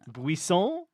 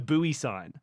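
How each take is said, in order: First: The word is pronounced with French-sounding vowels. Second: The word is pronounced like English 'buoy sign'. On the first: "You want to start saying it in a French way" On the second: "It was probably a buoy sign"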